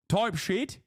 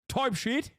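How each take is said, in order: First: It is said in a British-sounding accent. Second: The same.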